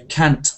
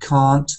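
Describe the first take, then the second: First: It uses the northern English vowel. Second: It uses the southern English vowel. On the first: "in the north ... They say can't" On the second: "this sound R for castle and can't um, is southern English"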